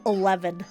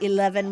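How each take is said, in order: First: It is said in an imitated Scottish accent. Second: It is said in a plain American accent. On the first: The speaker calls it right. "we say eleven. We make sure to say it to say it right" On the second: The speaker calls it wrong. "most of the time we don't say eleven"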